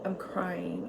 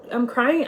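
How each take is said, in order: First: I'm crying breathed out in a soft unvoiced whisper. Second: I'm crying said higher and louder, crying rising; emphatic. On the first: Recalling tears over financial aid, whispered. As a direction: barely voice it, hushed. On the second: Telling viewers she broke down in tears, emphatic. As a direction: restate it with force. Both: Real, not acted.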